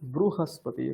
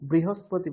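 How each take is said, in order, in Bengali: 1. প্রথম অংশটি 'bru'-এর মতো শোনায়। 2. প্রথম অংশটি 'bri'-এর মতো শোনায়। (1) "রু।" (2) "বৃহস্পতি বলবেন না"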